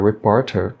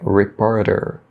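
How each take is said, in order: First: The middle T is pronounced as a clear T. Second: The middle T sounds like a quick tapped R. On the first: "Mas pronunciar reporter também está correto" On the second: "O T de reporter no inglês americano é pronunciado com o som do nosso R, o nosso R fraco"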